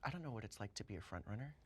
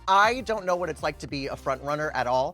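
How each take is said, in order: First: It is said in a tearful, dramatic way. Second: It is said in a plain, casual way.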